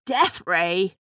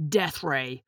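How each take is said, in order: First: Aghast, questioning echo; gasping shock. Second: Low, soft, cold menace; cold confirmation. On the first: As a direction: repeat it as a stunned question. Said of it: "Grandpa gasped". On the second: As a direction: confirm it coldly, dropping low and quiet. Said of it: "Buck answered coldly". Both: A narrator's reading.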